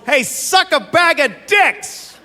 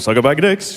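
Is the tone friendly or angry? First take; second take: angry; friendly. First: It is yelled angrily, like an insult. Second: It is said casually, like a friendly greeting.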